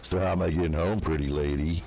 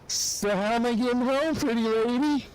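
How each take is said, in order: First: It is said in a creepy, leering voice. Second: It is said in a silly, goofy voice. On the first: The speaker is being a creep. The speaker calls it wrong. "I didn't say it in this voice, like, ... that would have been creepy" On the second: The speaker is joking and mocking himself. The speaker calls it right. "I did it in a goofy voice"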